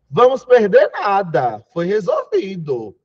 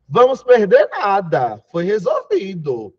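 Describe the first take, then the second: First: There is a pause after the word nada. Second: The same.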